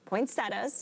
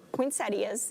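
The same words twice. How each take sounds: First: It is pronounced in a plain, everyday way. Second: It is pronounced in a fancy, elaborate way.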